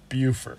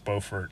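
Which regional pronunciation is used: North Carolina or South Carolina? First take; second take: South Carolina; North Carolina. First: It is said the South Carolina way. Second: It is said the North Carolina way. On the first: This is the name of the South Carolina town. "In South Carolina, it's pronounced Beaufort" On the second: This is the name of the North Carolina town. "they pronounce Beaufort in North Carolina"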